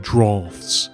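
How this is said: The word is said in a fancy, posh way. The speaker calls it right. "if you're going to use the word drafts, you've got to say drafts"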